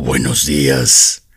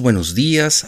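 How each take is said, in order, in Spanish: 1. El saludo suena frío y seco. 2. El saludo suena alegre y cálido.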